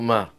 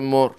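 First: The word is said in an Ashkenazi pronunciation. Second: The word is said in a Sephardi pronunciation. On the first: "ככה מדברים אשכנזים" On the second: "הספרדים אומרים מור"

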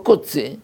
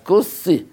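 First: The middle consonant is a ts sound. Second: The middle consonant is a plain s sound. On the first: The speaker calls it wrong. "לא קוצי, אין קוצי" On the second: The speaker calls it right. "אז קוסי"

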